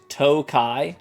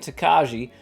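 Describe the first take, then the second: First: It ends in 'kai' with no 'j' sound. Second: It ends with a 'ji' sound after 'ka'. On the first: The speaker calls it right. "the like J is silent" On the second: The speaker calls it wrong. "have I been saying it wrong this whole time?"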